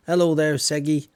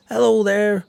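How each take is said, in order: First: Said in the usual way. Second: Calling out hello, much louder and higher; loud greeting. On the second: Acted. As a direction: shout a big cheery hello.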